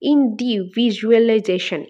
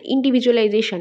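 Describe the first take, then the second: First: "individualisation" slowly, each syllable set apart. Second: Said in the usual way. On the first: Shown as a demonstration. Teacher dividing an eight-part word, "individualisation" said syllable by syllable. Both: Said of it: "এইটাকে ভাগ করলে".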